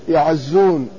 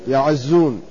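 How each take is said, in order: Both takes have the same delivery.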